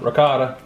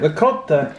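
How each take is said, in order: First: It is said with a North Carolina accent. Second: It is said with an old Italian accent.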